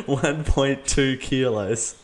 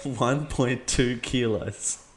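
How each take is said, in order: First: Laughing through the repeat, very slow; laughing to voice assistant. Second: Repeating to voice assistant. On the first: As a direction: giggle while slowly repeating the words. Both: Real, not acted.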